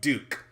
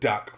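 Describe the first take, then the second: First: The word has a long 'oo' vowel. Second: The word has a short 'uh' vowel. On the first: The speaker calls it right. "That probably sounds is pronounced Duke" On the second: The speaker calls it wrong. "I'm going to pronounce it Duck"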